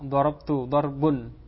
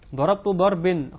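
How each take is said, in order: First: The second word ends with the vowel u. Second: The second word ends with the vowel i. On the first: "karena dia itu marfu'" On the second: "dibaca dengan kasrah ini juga salah"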